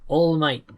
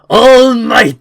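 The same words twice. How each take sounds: First: The name is said flatly, without force. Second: The name is said loudly, with power. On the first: The speaker calls it wrong. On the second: The speaker calls it right.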